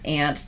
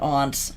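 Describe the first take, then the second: First: The vowel sounds like in the insect 'ant'. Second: The vowel sounds like in 'father'. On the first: This is how the speaker was raised to say it. The speaker calls it right. "it's ant to me" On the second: This sounds like a British accent. The speaker calls it wrong. "It is not aunt"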